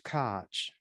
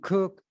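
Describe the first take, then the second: First: The name ends in a throaty German sound. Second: The name rhymes with the word cook.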